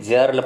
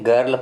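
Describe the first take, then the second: First: The word begins with a j sound. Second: The word begins with a hard g sound. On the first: The speaker calls it wrong. "जर्ल कहिएगा तो गलती हो जाएगा" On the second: The speaker calls it right. "यहाँ पे आप इसे गर्ल पढ़ेंगे"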